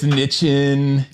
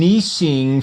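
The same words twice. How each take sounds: First: Said in a rough, rural way. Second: Said in a posh, upper-class way. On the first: The speaker is a hillbilly. "If you're a hillbilly, it's niching" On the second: The speaker is upper-class. "niching for the hoity-toities"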